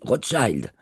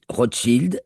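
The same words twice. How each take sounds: First: It is pronounced with an American English pronunciation. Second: It is pronounced with a French pronunciation. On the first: "aux États-Unis, on dit Rothschild" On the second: "en France, on dit Rothschild"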